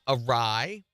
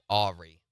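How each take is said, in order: First: It is said as uh-rye. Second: It is said as ah-ree.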